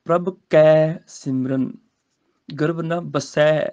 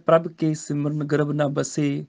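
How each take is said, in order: First: ਕੈ and ਬਸੈ with the open ai, slowly; ਸਹੀ ਪਾਠ ਕੈ ਬਸੈ; correct reading. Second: ਕੇ and ਬਸੇ with a plain e; ਗਲਤ ਪਾਠ ਕੇ ਬਸੇ; common wrong reading. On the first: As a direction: open the mouth fully on ਕੈ and ਬਸੈ. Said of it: "ਇੱਥੇ ਹੈਗਾ ਕੈ". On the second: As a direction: read it the mistaken way, ਕੇ not ਕੈ. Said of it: "ਗਲਤ ਹੋ ਗਿਆ". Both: Shown as a demonstration.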